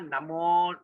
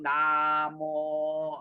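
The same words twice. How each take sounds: First: The first vowel is short. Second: The first vowel is drawn out long. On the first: The speaker calls it right. "A is short" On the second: The speaker calls it wrong. "not namo"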